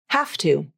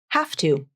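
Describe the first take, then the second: First: The final V sounds like an unvoiced F. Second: The final V sounds like an unvoiced F.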